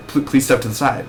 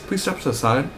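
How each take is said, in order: First: Stumbling, caught-off-guard repeat of please; flustered reply. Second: Security guard. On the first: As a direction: stammer the start of please. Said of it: "And then you're like". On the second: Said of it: "the security guard comes up to you". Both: Retold or imitated.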